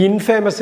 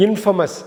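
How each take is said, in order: First: இன்ஃபேமஸ் with a long 'fay'; wrong 'in-FAY-mus'. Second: இன்ஃபேமஸ் as 'IN-fuh-mus'; shortened pronunciation. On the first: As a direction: say 'famous' whole inside இன்ஃபேமஸ். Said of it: "இது இன்ஃபேமஸ் இல்ல". (இன்ஃபேமஸ் - 'ஃபே' நீட்டிய தவறான ஒலி) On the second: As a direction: keep the middle of இன்ஃபேமஸ் a short 'fa'. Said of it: "குறுக்கி சொல்லணும்". (இன்ஃபேமஸ் - 'இன்ஃபமஸ்' என்று குறுக்கி) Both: Shown as a demonstration.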